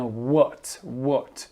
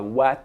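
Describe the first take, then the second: First: "what" with a rounded "o" vowel; correct WHAT. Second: "what" with an open "ah" vowel; mispronounced WHAT. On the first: Teacher showing French learners the proper sound, "what" said as "wot". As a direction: say "what" as "wot", drawn out and distinct. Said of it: "mais bien". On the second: Teacher warning French learners off a mistake, "what" mispronounced with "ah". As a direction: say "what" as "wat", with an A. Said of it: "Attention à la prononciation, on dit pas". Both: Shown as a demonstration.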